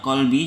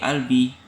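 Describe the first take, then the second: First: The word begins with a deep q sound. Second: The word begins with a glottal stop. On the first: "bahasa modern Fusha, huruf Qaf diucapkan dengan bunyi ki" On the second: "dialek Mesir yang diucapkan sebagai hamzah"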